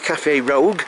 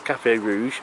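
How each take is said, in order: First: The last word ends with a hard 'g' sound. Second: The last word ends with a soft 'zh' sound. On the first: It is a joking misreading of the name. The speaker calls it wrong. "I always say Cafe Rogue because of my dyslexia" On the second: It is the name as it is written. The speaker calls it right. "but I know it says Cafe Rouge"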